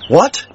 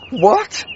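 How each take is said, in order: First: It sounds plain and not miserable. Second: It sounds miserable, with a gasp.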